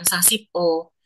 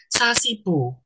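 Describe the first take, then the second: First: The final syllable is split off with a break. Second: The syllables run together into one word. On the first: The speaker calls it wrong. "bacanya bukan sasip O" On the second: The speaker calls it right. "Bukan sendiri-sendiri, bacanya dijadiin satu"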